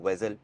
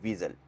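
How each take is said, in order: First: The first vowel sounds like 'ay'. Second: The first vowel sounds like 'ee'. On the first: The speaker calls it right. "ये actual में वेजल है" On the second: The speaker calls it wrong. "इसको हम pronounce वीजल नहीं करेंगे"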